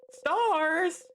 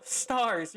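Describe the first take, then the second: First: Frustrated cry. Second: Said in the usual way. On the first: Acted. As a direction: fling the word out in frustration. Frustrated outburst at no tears.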